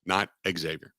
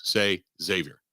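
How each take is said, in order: First: "Xavier" said ig-ZAY-vee-er with an added ig; mock the wrong "Xavier" with a hard ig start; "Xavier" with the KS sound in front; wrong pronunciation. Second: "Xavier" said ZAY-vee-er with a plain Z; correct pronunciation. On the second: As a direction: coach them to say "Xavier" with a Z start. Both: Shown as a demonstration. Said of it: "you want to impress your friends".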